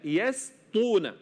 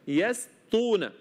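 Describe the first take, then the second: The two takes are said the same way.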